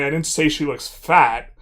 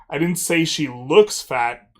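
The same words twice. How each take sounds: First: The word "fat" carries the main stress. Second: The word "looks" carries the main stress. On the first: Something else was said about her appearance. "but I said something else about how she looks" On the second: She actually is fat, not just looks it. "I said that she just is fat"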